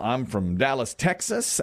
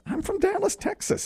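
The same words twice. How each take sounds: First: Said in the usual way. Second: Much higher, gleeful and breathless on Texas; eager boast. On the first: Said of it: "repeated with a big excited shift". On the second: Acted. Party invite accepted, eager high-pitched boast. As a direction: squeal the hometown like it's a badge of honor.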